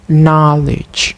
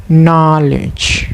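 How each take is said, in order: No difference in how they are said.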